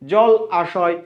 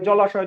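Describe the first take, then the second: First: The two words are kept apart, said slowly. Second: The two words merge into one, said quickly. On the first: "উচ্চারণ করতে একটা দীর্ঘ সময় লাগছে" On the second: "দ্রুত উচ্চারণ করতে গিয়ে"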